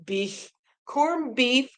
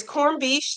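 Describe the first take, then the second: First: "corned beef" slowly, with a clear final f; slow, deliberate "beef, corned beef"; careful correction. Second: "corned beef" slurred, ending in a sh sound; "beef" slipping into "beesh"; slurred slip. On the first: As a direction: correct yourself, sounding out the f in "beef". Corrects own slip, slowly. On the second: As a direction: trip on "corned beef", turning the f into sh. Slip, corrected right after. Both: Real, not acted.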